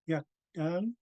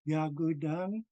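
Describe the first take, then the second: First: A middle sound is left out of the word. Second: A middle sound is pronounced in the word. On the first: This is how the Skidegate dialect says it. "in the Skidegate dialect, ... where we say Yakdang. We don't pronounce the W" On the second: This is how the singer's dialect says it. "I think I also heard her sing"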